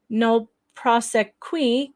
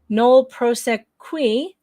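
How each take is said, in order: First: The phrase ends with a 'kwee' sound. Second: The phrase ends with a 'kwee' sound.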